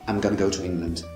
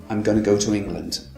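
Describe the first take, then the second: Both takes have the same delivery.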